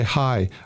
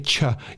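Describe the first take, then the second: First: The word begins with an 'h' sound. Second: The word begins with a 'ch' sound. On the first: The speaker calls it right. "you say hi" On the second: The speaker calls it wrong. "you don't say cha"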